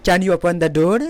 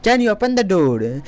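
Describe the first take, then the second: First: Said in the usual way. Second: Very slow, each word clear; slow teaching repeat; slow model sentence. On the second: Shown as a demonstration. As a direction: spell it out slowly for students. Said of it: "slow repeat for learners".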